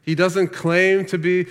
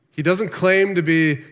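No difference in how they are said.

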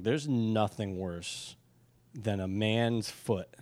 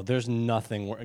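First: "nothing" slow and drawn out, every word weighed; stress on nothing. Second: Said in the usual way. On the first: Shown as a demonstration. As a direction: lean hard on "nothing", very slowly. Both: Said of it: "guys, when I say nothing".

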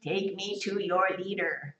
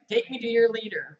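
First: Slow, robotic alien greeting; slow, deadpan sci-fi alien. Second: Said in the usual way. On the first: Retold or imitated. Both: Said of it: "The alien says a very famous line".

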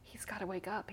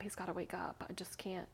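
First: Hushed pleading; softly begging him to wake up; quiet tearful plea; retold plea. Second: Breathy whisper, near tears; desperate whispered repeat; whispered plea. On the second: Retold or imitated. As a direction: whisper it as if at his bedside. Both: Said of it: "I kept crying".

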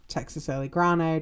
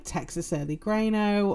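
First: "Grano" said as GRAH-no; broad-A pronunciation. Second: "Grano" said as GRAY-no; long-A pronunciation. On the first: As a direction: say "Grano" with an open "ah" in the first syllable. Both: Shown as a demonstration. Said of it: "depending on how you pronounce it".

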